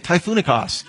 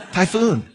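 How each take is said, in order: First: "Typhoonicos" sounded out as the Greek term; "Typhoonicos" as a tentative Greek coinage; Greek word try. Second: Said in the usual way. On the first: Shown as a demonstration. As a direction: say "Typhoonicos" like a foreign word you're reaching for. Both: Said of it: "how do you say it?".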